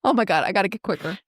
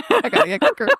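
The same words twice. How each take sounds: First: Said in the usual way. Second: Much higher, pushed repeat of "I gotta get quicker"; exasperated repeat. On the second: Real, not acted. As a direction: say it again, pitched way up in frustration.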